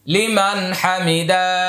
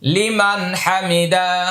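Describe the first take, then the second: Both takes have the same delivery.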